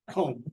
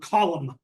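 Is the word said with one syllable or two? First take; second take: one; two. First: The word is said with one syllable. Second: The word is said with two syllables. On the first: This is the standard form of the word. "but it's C U L M, comb" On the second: This is how local people say it. "what locally is called column"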